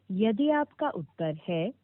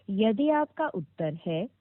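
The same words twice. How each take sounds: The two takes are said the same way.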